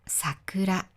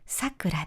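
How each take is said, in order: First: It has the flower word's pitch accent. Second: It has the woman's name pitch accent. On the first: It refers to the cherry blossom. "花の名前は桜です。" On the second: It refers to a woman's name. "私の兄の奥さんの名前はさくらです。"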